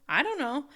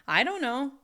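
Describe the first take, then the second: No difference in how they are said.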